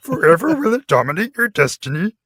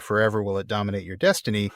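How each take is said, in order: First: It is said in an imitation of Yoda's voice. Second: It is said in his normal voice.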